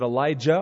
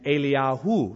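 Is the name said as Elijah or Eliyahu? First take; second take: Elijah; Eliyahu. First: The name is said in the usual English form, Elijah. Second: The name is said in the longer form, Eliyahu. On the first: The speaker calls it wrong. "That's because we mispronounce the names" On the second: The speaker calls it right. "It's actually Elisha and Eliyahu"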